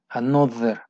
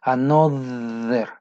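First: Another at normal pace with a voiced th. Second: Another stretched slowly with a buzzing th; slow voiced th. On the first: Teacher repeats another at normal speed. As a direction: say another again, quicker, still voiced. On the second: Teacher slowly models Another for learners. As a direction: draw out Another, voicing the th. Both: Shown as a demonstration. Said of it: "Esta se parece más a nuestra D".

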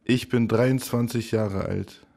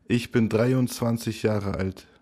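Both takes have the same delivery.

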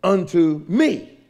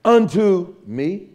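First: Slow build to a punched "me"; "unto" then a big, falling "me"; stress on me. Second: UNTO hit hard, me let go lighter with a rise; slow, weight on unto, questioning lift; stress on unto. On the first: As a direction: land hard on "me" after unto. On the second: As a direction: punch "unto", slow and deliberate. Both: Shown as a demonstration. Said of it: "Is the emphasis of the text".

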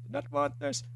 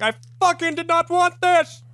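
First: P=A; distressed Indian man voice. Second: High, strained cry of despair; distressed Indian man voice. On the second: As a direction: wail it like a distraught old man. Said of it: "pretty good distressed Indian man voice you had". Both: Retold or imitated.

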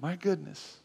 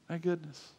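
Both takes have the same delivery.

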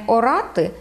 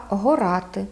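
First: Said in the usual way. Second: Горати with breathed h put in front; added first consonant. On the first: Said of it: "Не орати". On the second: Shown as a demonstration. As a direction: Podillia горати, "ho-RATY". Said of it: "мають приставний звук".

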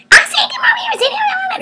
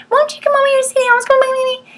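First: Much higher mock angry shout; furious parent shouting the order; angry yell. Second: Much higher, fast pleading whine; mock whine at the kids; high, fast, wheedling plea to a child; whining. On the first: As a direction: yell at the kid in anger. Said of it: "Or we get mad". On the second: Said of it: "we whine at our kids".

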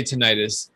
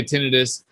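First: "tinnitus" said tih-NYE-tus; accepted alternative pronunciation. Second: "tinnitus" said TIN-ih-tus; medical professionals' pronunciation. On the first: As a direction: put the stress on NYE in "tinnitus". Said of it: "but you can say". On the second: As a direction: stress the first syllable of "tinnitus", short i. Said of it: "medical professionals typically say". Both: Shown as a demonstration.

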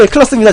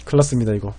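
First: High, loud cry of alarm; big-trouble announcer shout; excited alarm. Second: Low, soft and deflated; quiet sinking dread; resigned worry. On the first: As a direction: sound the alarm, caster-style. Alarm as opponent powers up. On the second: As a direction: murmur it, already beaten. Repeats it as defeat nears. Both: Real, not acted.

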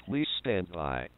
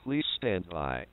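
The two takes are said the same way.

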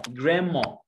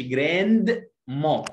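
First: American-style جراندما, N and D melting into M; silent D. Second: جراند ما in two parts, D sounded before the M; D pronounced. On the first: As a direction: say جراندما with the D dropped, 'gramma'. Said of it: "خد بالك من الدي هنا في الامريكان". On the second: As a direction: say جراند ما with a clear separate D. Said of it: "ما بنطقهاش، ما اقولش". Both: Shown as a demonstration.

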